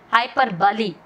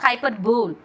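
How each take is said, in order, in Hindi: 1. अंत दो शब्दांश हैं, जैसे 'bully'। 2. अंत एक शब्दांश है, जैसे 'bowl'। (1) "Remember bahubali, hyperbole" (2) "you have to pronounce that not hyperbole"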